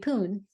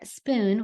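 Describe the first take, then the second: First: The word begins with one consonant sound. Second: The word begins with two consonant sounds. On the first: The speaker calls it wrong. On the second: The speaker calls it right.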